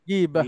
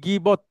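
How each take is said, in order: First: The word ends with a breathy h sound. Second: The word ends with a t sound. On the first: This is the Arabic form when stopping on the word. "আরবিতে বললে গিবাহ, থেমে গেল" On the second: This is how it is said in Bengali. "আমরা বলি গিবত"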